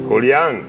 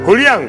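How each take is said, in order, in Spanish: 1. El nombre Julián se dice muy suavemente y lento. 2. El nombre Julián se dice con voz normal.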